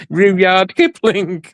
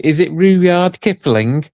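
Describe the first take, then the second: First: Rudyard Kipling stretched very slowly and much higher; who on earth is Rudyard Kipling, said slowly and high; incredulous. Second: Slow, higher questioning read of Rudyard Kipling; half-voiced quote of Mel sounding out Rudyard Kipling; imitating Mel reading a name. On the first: Retold or imitated. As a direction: drag out Rudyard Kipling in disbelief. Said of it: "I'm thinking, Who the bloody hell's". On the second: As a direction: mimic a friend puzzling over Rudyard Kipling. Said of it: "and she's saying".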